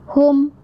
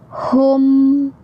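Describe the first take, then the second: First: It is said quickly with the m cut short. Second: It is said unhurried with the m clearly held. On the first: The speaker calls it wrong. "Jadi jangan kecepatan" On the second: The speaker calls it right. "harus ada uh, em-nya"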